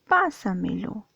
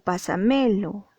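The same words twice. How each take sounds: First: The stress falls on the first syllable. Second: The stress falls on a later syllable. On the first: The speaker calls it right. "dices pásamelo" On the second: The speaker calls it wrong. "o pásamelo"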